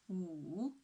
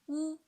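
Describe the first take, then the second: First: The pitch dips low, then rises again. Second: The pitch stays high and level. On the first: "the third tone, from two to one to four" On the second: "The first tone"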